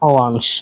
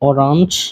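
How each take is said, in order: First: The r sound is dropped. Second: The r sound is clearly pronounced. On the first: "যে জায়গায় আটটা থাকবে না আর কি" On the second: "এটাও বলতে পারেন অরাঞ্জ"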